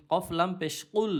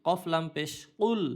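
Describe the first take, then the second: No difference in how they are said.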